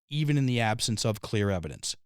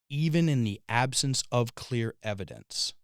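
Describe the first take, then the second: First: It is said faster. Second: It is said slowly.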